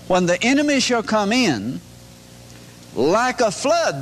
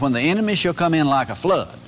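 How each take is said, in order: First: There is a pause before "like a flood". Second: There is no pause before "like a flood".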